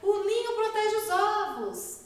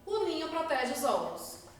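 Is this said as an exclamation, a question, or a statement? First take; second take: exclamation; statement. First: It is said as an amazed exclamation. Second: It is said as a flat, falling statement. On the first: It expresses amazement. "Estou me admirando" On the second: It asserts a fact. "Afirmei, ponto final"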